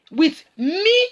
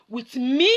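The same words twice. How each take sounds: First: With me, rising, louder; emphatic repeat. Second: Said in the usual way. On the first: Shown as a demonstration. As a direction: push the repeated "with me" higher and louder. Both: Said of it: "repeated for emphasis".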